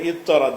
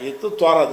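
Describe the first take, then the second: First: The two t sounds merge into one doubled sound. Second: The two t sounds are said separately. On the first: The speaker calls it right. "சத்து பண்ணி" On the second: The speaker calls it wrong. "என்று இருந்துச்சு"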